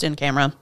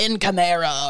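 First: The phrase is pronounced in a plain, ordinary way. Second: The phrase is pronounced in a fancy, elaborate way. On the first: The speaker calls it right. "but it's just in camera" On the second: The speaker calls it wrong. "I want it to be fancier, like in camera or something"

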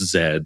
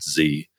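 First: The letter is said as zed. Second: The letter is said as zee. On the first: The speaker calls it right. "I'm Canadian, we're English, it's Z" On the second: The speaker calls it wrong. "it's not Z"

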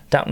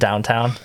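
First: The second syllable is said as 'ton'. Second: The second syllable is said as 'town'. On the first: The speaker calls it right. "I appreciate your correct pronunciation" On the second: The speaker calls it wrong. "Not downtown"

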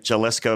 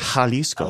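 First: The word begins with an English J sound. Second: The word begins with a breathy H sound. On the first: The speaker calls it wrong. "favorite pronunciation I've ever heard" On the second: The speaker calls it right. "not a J sound"

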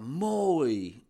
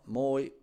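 First: The word is said with warm, emotional tone. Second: The word is said plainly, without feeling. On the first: It triggers all kinds of feelings. "Precies die toon. Precies die tempo. Precies die uitspraak" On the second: It is just the bare word. "Dus het woord zelf"

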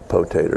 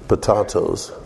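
First: It is said the Southern way, potater. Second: It is said the standard way, potatoes.

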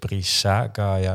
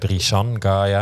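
First: The first word ends with a vowel. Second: The first word ends with an n sound. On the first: The speaker calls it right. "nee, het is Brisa Gaia" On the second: The speaker calls it wrong. "want ik zei Brisan Gaia"

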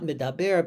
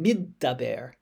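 First: The d sound in the middle is short and single. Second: The d sound in the middle is held and doubled. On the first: The speaker calls it wrong. "Not middaber" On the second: The speaker calls it right. "with almost as if there's two sounds of dalet"

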